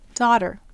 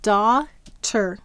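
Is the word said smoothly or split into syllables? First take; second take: smoothly; split. First: The word is said smoothly as one unit. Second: The word is broken into separate syllables. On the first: It is the everyday way of saying the word. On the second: It is said syllable by syllable to help spell it.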